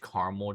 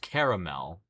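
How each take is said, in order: First: The word is said with two syllables. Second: The word is said with three syllables. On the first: "in North America it's pronounced caramel" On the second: "so the spelling is caramel"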